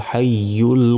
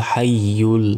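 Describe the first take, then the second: Both takes have the same delivery.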